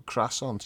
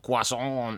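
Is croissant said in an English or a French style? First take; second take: English; French. First: The word is said with an English pronunciation. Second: The word is said with a French pronunciation. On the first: This is the speaker's own everyday way. "better than the way I say it" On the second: The speaker is pretending to be French. "It's when you go, oh, croissant. Now, you sound like a knobhead"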